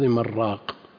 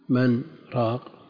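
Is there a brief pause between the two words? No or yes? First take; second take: No; Yes. First: The n merges into the r without pause. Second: A brief pause separates the two words. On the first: It sounds like the word for a broth seller. "وإذا أدغمت صارت في اللفظ من راق" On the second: It is heard as two separate words. "هذا موضع سكتة لطيفة"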